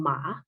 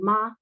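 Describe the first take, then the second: First: "ma" low, dipping down then lifting at the end; Mandarin tone three. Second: "ma" held on one steady high level pitch; Mandarin tone one. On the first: Lecturer demonstrating Mandarin tone three to the class: low dipping "ma". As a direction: drop "ma" low into a dip and let it curl back up. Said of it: "the low or, uh, dipping tone". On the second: Lecturer demonstrating Mandarin tone one to the class: high level "ma". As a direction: sing out "ma" flat and high, no dip or rise. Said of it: "the high level tone". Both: Shown as a demonstration.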